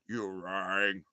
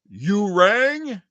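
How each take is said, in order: First: The voice is much deeper and lower. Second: The voice is at an ordinary pitch. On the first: The speaker calls it right. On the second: The speaker calls it wrong.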